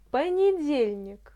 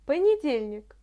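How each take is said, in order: First: The word is said slowly and carefully. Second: The word is said at a normal pace.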